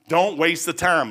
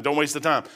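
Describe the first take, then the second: First: Each word slow and heavy, stress on Don't; slow emphatic warning. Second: Said in the usual way. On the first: Shown as a demonstration. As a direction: plead it slowly, leaning on Don't.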